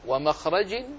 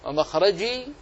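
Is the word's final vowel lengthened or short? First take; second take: short; lengthened. First: The word ends without a long final vowel. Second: The word ends with a drawn-out final vowel.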